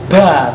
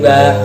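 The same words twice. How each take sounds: First: The ba is released with a puff of air. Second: The ba is released with no puff of air. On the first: The speaker calls it wrong. "ngomong ba ba keluar udara" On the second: The speaker calls it right. "Ba itu sifatnya adalah syidah, tidak boleh keluar udara"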